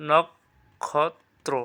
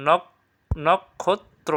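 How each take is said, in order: First: নক্ষত্র said slowly as nok-khot-tro, with an aspirated kh; second variant. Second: নক্ষত্র said slowly as nok-kot-tro, without the aspirated kh; first variant. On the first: Teacher offering two accepted ways of saying নক্ষত্র, slow second variant. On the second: Teacher offering two accepted ways of saying নক্ষত্র, slow first variant. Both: Shown as a demonstration. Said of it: "যেটা দাও, সমস্যা নেই".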